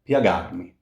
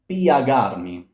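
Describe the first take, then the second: First: The i glides into the a in one syllable. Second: The i and a are two separate syllables. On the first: The speaker calls it right. "This here is a glide" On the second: The speaker calls it wrong. "So do not sing piagarmi"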